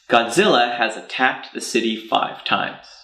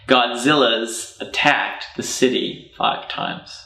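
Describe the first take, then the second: First: The word has is said as a separate word. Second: The word has is reduced to an S sound.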